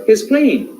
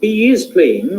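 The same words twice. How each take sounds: First: "He's" run together as one short syllable; contracted form. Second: "he is" as two separate full words; full uncontracted form. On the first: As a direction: contract "He's" before playing. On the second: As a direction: give "is" its own full vowel. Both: Shown as a demonstration. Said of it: "rather than he is playing".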